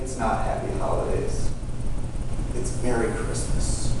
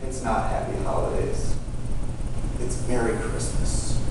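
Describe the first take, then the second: First: It is said in a condescending, patronizing tone. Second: The same.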